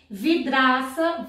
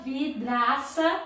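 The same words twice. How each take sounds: First: Said in the usual way. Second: "vidraça" slowly as vi-dra-ça, DR kept together; split into syllables. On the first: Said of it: "Encontros consonantais na mesma sílaba". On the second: Shown as a demonstration. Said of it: "Ficou na mesma sílaba".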